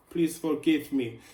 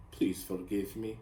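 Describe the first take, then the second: First: Put-on loud, higher-pitched pleading in a vague Italian accent; playful, badly faked Italian accent; mock Italian accent. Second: Said in the usual way. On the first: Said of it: "accent. I don't even know which accent it is. Maybe Italian".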